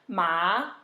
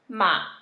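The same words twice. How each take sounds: First: It is said with the second tone. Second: It is said with the third tone. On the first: It means hemp. "second tone, means hemp" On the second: It means horse. "third tone, means horse"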